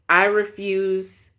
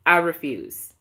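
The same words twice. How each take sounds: First: I refuse said slowly, each word weighed; slow down and plant the refusal; slow, drawn-out refusal. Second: Said in the usual way. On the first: Real, not acted. Vlogger to viewers, refusing to reply to him, slow and firm. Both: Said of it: "I'm not going to".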